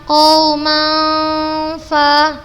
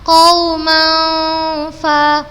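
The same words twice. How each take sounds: Both takes have the same delivery.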